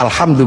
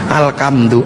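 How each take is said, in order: First: The middle consonant is an 'h' sound. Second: The middle consonant is a 'k' sound.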